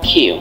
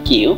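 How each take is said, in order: First: It is said as a short consonant sound. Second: It is said as the full letter name. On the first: The speaker calls it right. "এটি কিউ না, এটি হচ্ছে কিউ" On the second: The speaker calls it wrong. "ছোটবেলা থেকে আমরা এই কিউটা শিখেছি সবাই কিউ নামে"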